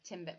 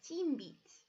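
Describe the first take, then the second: First: The vowels sound like a short English ih. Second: The vowels sound like a Spanish ee. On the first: "a timbit is actually still going to be a timbit" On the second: "more Espanol sounding, because we know that the I is an E sound"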